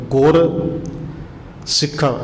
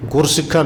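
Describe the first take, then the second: First: ਗੁਰ, a clear pause, then ਸਿੱਖਾਂ; two separate words. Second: ਗੁਰ ਸਿੱਖਾਂ joined as one word, no pause; run together. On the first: Preacher showing listeners how to read scripture, ਗੁਰ and ਸਿੱਖਾਂ apart. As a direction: split ਗੁਰ from ਸਿੱਖਾਂ with a long gap. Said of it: "ਇਹ ਪਾਠ ਅੱਡੋ ਅੱਡ ਹੈ". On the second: Preacher showing the misreading, ਗੁਰ ਸਿੱਖਾਂ run together as one word. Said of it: "ਨਹੀਂ ਪੜ੍ਹਨਾ". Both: Shown as a demonstration.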